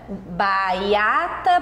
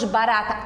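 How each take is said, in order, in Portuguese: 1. O r é substituído por um som de glide. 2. O r é pronunciado como um tepe. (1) "A mesma coisa do R de barata" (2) "e depois barata"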